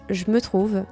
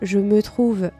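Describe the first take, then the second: First: The words are shortened and run together. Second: Each sound is pronounced in full.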